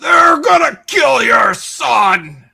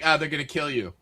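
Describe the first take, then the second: First: It is shouted intensely, like the werewolf. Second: It is said casually, without urgency.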